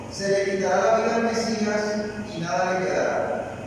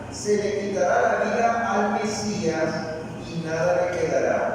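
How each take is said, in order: Both takes have the same delivery.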